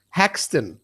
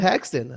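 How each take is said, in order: First: The name is said in an imitated foreign accent. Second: The name is said in the speaker's own accent. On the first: The speaker calls it wrong. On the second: The speaker calls it right.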